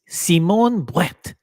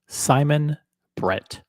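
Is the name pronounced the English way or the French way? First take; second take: French; English. First: The name is pronounced with French sounds. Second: The name is pronounced with English sounds.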